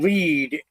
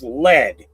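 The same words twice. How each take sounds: First: The vowel is long, rhyming with seed. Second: The vowel is short, rhyming with bed. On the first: It means to guide or go first. The speaker calls it right. "instead of saying lead" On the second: It means the metal. The speaker calls it wrong. "as in the metal, the metal lead"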